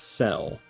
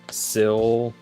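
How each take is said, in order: First: The vowel sounds like the one in 'cell'. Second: The vowel sounds like the one in 'sill'. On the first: This is how the speaker always assumed it was said. The speaker calls it wrong. "I always thought of it as cell. Like perfect cell from Dragon Ball" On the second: This is how others say it is supposed to be said. The speaker calls it right. "it's actually supposed to be Sill"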